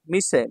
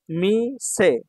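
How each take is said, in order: First: Said in the usual way. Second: মিসে slow, both syllables held apart. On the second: Shown as a demonstration. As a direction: draw out মিসে in two long beats. Teacher sounds out new word.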